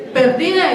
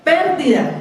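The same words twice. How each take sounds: First: "Perdida" stressed on DI, as in lost, with no tilde; "Perdida" with the stress shifted off the first E onto DI; stress moved to the middle. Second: "pérdida" stressed on PÉR, the E marked with a tilde; "pérdida" with the stress landing clearly on the opening syllable; accent on the first syllable. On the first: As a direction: say "Perdida" as per-DI-da, weight on the middle syllable. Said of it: "si usted no le coloca la tilde, ¿qué le suena?". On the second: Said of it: "pérdida con tilde en la E". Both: Shown as a demonstration.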